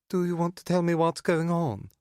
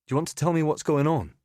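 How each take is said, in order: First: High, mocking imitation of his voice; shrill clipped mockery. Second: Said in the usual way. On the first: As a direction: parrot him back, shrill and sneering. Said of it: "imitates my voice with a shrill, clipped accent". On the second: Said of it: "original question".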